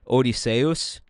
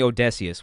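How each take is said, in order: First: The name has a classical Greek pronunciation. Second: The name has its usual English pronunciation. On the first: "in the classical Greek, it would be closer to Odysseus, uh, which sounds really weird" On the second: "he calls me Odysseus"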